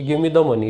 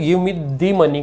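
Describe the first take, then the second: First: The word 'the' is said with a short 'thuh'. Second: The word 'the' is said with a long 'thee'. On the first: A plain, neutral request. "सामान्य तौर पे हम बोलेंगे तो द का द उच्चारण होगा" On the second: Insists on that specific money. "Money के ऊपर जबरदस्ती जोर डालना चाह रहे हैं"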